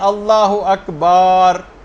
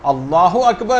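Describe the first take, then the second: First: The phrase is stretched out and drawn long. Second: The phrase is said at normal length. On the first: The speaker calls it wrong. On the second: The speaker calls it right.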